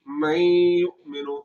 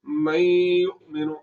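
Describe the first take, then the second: First: The nasal sound is drawn out through the nose. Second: The nasal sound is drawn out through the nose.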